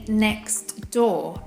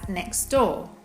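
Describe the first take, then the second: First: The T at the end of 'next' is pronounced. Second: The T at the end of 'next' is dropped. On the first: "I say" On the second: "actually as"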